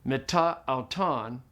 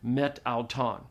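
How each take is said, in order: First: The final vowel is pronounced, leaving a vowel gap. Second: The final vowel is dropped, words run together. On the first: The speaker calls it wrong. "Say it with the alpha" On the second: The speaker calls it right. "you drop off the alpha"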